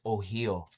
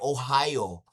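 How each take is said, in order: First: Ohio has a Native-style pronunciation. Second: Ohio has the standard American English pronunciation. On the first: The speaker calls it right. "the Indian way. It's Ohio" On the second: The speaker calls it wrong.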